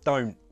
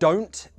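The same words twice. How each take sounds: First: The t is replaced by a glottal stop. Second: The t is pronounced as a clear t.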